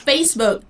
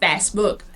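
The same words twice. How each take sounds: First: The first vowel is a long A sound. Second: The first vowel is a short A sound. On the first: The speaker calls it right. "it's Facebook" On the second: The speaker calls it wrong. "not Facebook"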